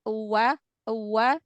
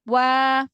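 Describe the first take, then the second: First: It starts from closed lips with an extra 'u' sound. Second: It starts directly with rounded lips, no extra vowel. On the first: The speaker calls it wrong. "jangan dari rapat dulu, diem dulu mulutnya baru uwa uwa" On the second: The speaker calls it right. "Jadi monyong dulu, baru eh, irja"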